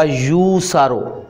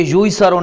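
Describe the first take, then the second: First: "यू सारो" said slowly and carefully as yu saaro; correct reading. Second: "यू ही सरो" read as the mistaken form, yu hi saro; wrong reading. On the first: Teacher models the correct reading "यू सारो" slowly for students. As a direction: spell out "यू सारो" slowly, the right way. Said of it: "अब ये पढ़ा जाएगा". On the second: Teacher shows students the wrong reading, "यू ही सरो" said plainly. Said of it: "नहीं पढ़ा जाएगा". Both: Shown as a demonstration.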